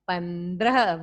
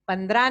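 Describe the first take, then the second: First: Said carefully, with every sound clear. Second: Said loosely, with sounds slurred together. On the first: The speaker calls it right. "Very good" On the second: The speaker calls it wrong. "नहीं"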